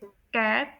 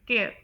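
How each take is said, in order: First: It is said with a British accent. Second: It is said with an American accent. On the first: "UK में" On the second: "US में"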